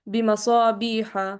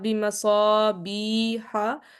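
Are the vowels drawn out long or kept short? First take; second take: short; long. First: The vowels are kept at normal length. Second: The vowels are stretched out too long. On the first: The speaker calls it right. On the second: The speaker calls it wrong.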